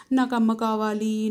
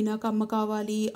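First: Loud tearful plea, stress on నాకు; crying plea. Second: Quieter tearful repeat, stress on అమ్మ; softer crying plea. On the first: Girl clinging to giant, crying plea. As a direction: burst out crying for mother. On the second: Girl keeps begging the giant, softer crying plea. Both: A narrator's reading. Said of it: "ఏడుపు తన్నుకొచ్చింది".

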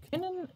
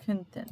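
First: Said in the usual way. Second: Könnten said as the more polite option, after können; politer form. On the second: Shown as a demonstration. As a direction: offer könnten as the softer, politer word. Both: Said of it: "ili još ljubaznije".

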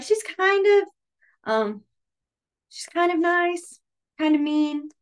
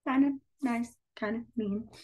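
First: Higher, slow "kind of nice, kind of mean"; sing-song a teeter-totter opinion; high see-saw example voice; wavering so-so voice. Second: Said in the usual way. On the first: Shown as a demonstration. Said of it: "So you'd be like". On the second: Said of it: "That's how I would say it".

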